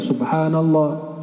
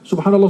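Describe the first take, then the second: First: It is said slowly and calmly. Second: It is said fast.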